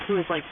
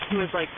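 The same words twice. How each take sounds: The two takes are said the same way.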